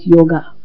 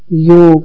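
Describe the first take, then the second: First: The word ends with an added vowel sound. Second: The word ends on the consonant g. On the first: The speaker calls it wrong. "not yoga" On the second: The speaker calls it right. "The original word is yog"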